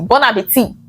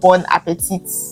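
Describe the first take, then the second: First: The final T is silent. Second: The final T is pronounced. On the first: The speaker calls it right. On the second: The speaker calls it wrong.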